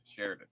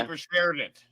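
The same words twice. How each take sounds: First: Said in the usual way. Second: Shared punched high and loud; stress on shared. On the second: Real, not acted. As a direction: hit the word shared hard.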